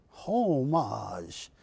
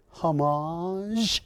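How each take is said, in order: First: Homage with a long HOHM, then falling away; HOOOH-mahzh, homage stretched at the front, ending low; emphasis on first syllable. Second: Homage with a long, drawn-out rising MAHZH; hah-MAAAHZH, homage stretched upward at the end; stress on second syllable. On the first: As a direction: draw out the first syllable of homage and drop the second. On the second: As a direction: lean slowly on the last syllable of homage, lifting it. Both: Shown as a demonstration. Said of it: "put any emphasis on different syllables".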